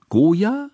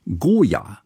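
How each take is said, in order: First: "Goya" leaping high into a question; puzzled question. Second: "Goya" stated with a falling end; name "Goya" as a settled answer; plain naming. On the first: Hanaka takes painter for melon, "Goya" rising high in question. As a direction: echo "Goya" with a steep rise. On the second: Kusmin names the painter, "Goya" falling as a statement. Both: A narrator's reading.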